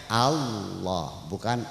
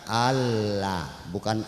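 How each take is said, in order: Both takes have the same delivery.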